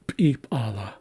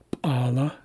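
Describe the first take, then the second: First: P'ala said as pi-pa-la, two ejective Ps; plural form. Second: P'ala as two syllables, one ejective P; singular form. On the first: Teacher contrasts plural with singular, doubled ejective P. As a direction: add a popped "pi" before "p'ala". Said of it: "is plural". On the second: Teacher contrasts singular with plural, one ejective P. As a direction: say "p'ala" as pa-la, popping the single P. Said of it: "is singular". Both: Shown as a demonstration.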